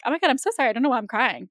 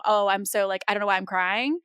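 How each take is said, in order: First: Mock teary apology. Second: Joking apology. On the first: Retelling how she brushed off crying, mock flustered apology. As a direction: replay a flustered, laughing-off apology. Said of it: "the whole idea of". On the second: Retold or imitated. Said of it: "while ha ha funny and me joking around".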